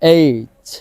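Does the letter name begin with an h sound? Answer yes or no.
no. The letter name starts with a vowel sound. This is the way the learners should say it. "তবে আমরা এইচ, এইচ এভাবে বলবো"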